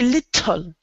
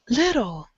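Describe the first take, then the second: First: The T is pronounced very strongly, like doubled. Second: The T is pronounced softly, only once. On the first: The speaker calls it wrong. "We don't say little, little, like trying to make the T very strong" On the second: The speaker calls it right. "Try a very soft T"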